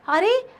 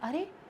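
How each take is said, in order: First: It sounds surprised and astonished. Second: It sounds sad and grieving.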